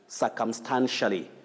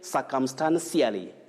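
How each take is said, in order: First: The ending is pronounced like shally. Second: The ending is pronounced like see-ally. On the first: The speaker calls it right. "you say shally" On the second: The speaker calls it wrong. "Cially may be common"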